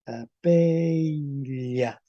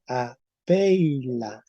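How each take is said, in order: First: "apeila" muy estirado, con la ele palatal, como "apeilla"; ele palatalizada. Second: "apeila" con ei alargado y ele simple; diptongo ei. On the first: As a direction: alarga "apeila" y termina en "lla". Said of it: "con el C se va a transformar". ("apeila" lentísimo, acabado en ele palatal) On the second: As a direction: pronuncia "apeila" despacio, marcando la i. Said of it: "se va a transformar en". ("apeila" lento, con diptongo y la final en "la") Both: Shown as a demonstration.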